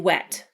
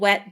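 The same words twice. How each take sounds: First: The final T is clearly released and heard. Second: The final T is not released or heard. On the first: "you did hear the T" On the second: "You didn't hear the T"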